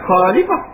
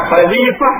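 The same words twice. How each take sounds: First: Khalifah with a plain h, the mistake; teacher marking khalifah as wrong. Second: Khalifah slow with a throaty kh; teacher giving the right khalifah; correct khalifah. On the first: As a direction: show khalifah as misread. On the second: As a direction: say khalifah with the Arabic kh sound. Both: Shown as a demonstration. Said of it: "bukan khalifah".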